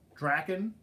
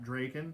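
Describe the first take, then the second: First: The first vowel sounds like in 'dragon'. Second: The first vowel does not sound like 'dragon'. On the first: The speaker calls it right. "Is the proper pronunciation" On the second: The speaker calls it wrong. "not Draken. I know a lot of people say Draken"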